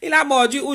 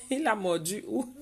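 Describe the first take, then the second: First: Higher, louder, teasing emphasis; raised teasing question; louder repeat. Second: Soft, giggling through the words; amused at the dog bite news; quietly laughing it out; laughing question. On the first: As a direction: ask again with mock alarm. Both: Real, not acted.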